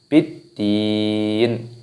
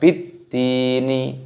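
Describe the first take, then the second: First: The final nun is closed without a vowel. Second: The final nun is followed by a vowel. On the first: The speaker calls it right. "tapi biddin" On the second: The speaker calls it wrong. "bukan dibaca biddini"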